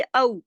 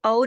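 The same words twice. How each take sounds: First: औ gliding from a to u, louder; waw leen diphthong. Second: औ said as a plain o without glide; flat single vowel. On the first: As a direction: say औ like the end of Lucknow. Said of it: "क्या पढ़ेंगे?". (औ, लखनऊ के नऊ जैसा) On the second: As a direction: make औ one pure Urdu vowel. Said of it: "इसको औ नहीं पढ़ेंगे". (औ को बिना अ-उ की आवाज के) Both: Shown as a demonstration.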